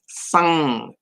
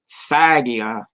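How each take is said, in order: First: The middle consonant is a nasal ng sound. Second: The middle consonant is a plain g sound. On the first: This is the proper reading of the sign. The speaker calls it right. "it is sang" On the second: This is how someone might read the English spelling. The speaker calls it wrong. "which somebody would say sagia"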